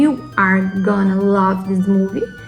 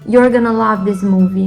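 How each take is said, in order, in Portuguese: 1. As palavras you are são ditas separadamente. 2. You are é reduzido a uma sílaba. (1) "Ao invés de" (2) "you are, you're"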